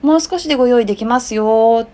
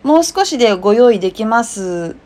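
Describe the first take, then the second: First: The final yo is drawn out gently. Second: The ending is short and plain.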